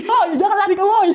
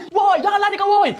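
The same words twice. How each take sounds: First: Yelling after thief. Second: Another high, loud shout after the runner; yelling after thief. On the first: Villager yelling at a fleeing thief to stop, shouting. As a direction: shout it higher and louder after a runner. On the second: Same villager still chasing the thief, shouting again. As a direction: keep bellowing at him to stop. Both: Acted.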